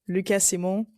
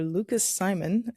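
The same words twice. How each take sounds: First: The name has a non-English pronunciation. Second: The name has an English pronunciation.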